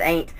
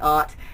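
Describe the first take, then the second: First: The word is said in a casual, homespun way. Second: The word is said in a posh, refined way. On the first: This is how the family said it growing up. "when I was growing up, we said ain't" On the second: This sounds too uppity for the speaker to use. "That just sounds too uppity"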